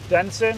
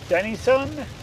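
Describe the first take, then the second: First: The name is said with two syllables. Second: The name is said with three syllables. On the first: The speaker calls it right. "I think it's just Denson" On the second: The speaker calls it wrong. "I know that's not how you pronounce it"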